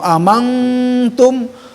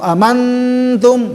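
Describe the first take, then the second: First: The nasal is hidden, sounding like ng. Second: The nasal is brought close to n. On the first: "Amangtum disamarkan" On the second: "didekatkan ke nun"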